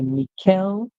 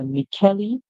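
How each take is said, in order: First: The middle sound is k, no final vowel. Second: The middle sound is k, with a final vowel. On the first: "the C H being pronounced as K" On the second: "the E at the end being pronounced too"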